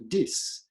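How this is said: It begins with a d sound.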